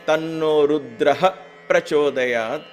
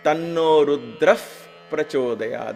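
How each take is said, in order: First: Rudra ends with a full ha syllable. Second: Rudra ends with a subtle f sound. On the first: The speaker calls it wrong. "instead of saying Tanno Rudraha Prachodayat, it is very difficult to chant in beat" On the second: The speaker calls it right. "that F comes in, a very subtle F"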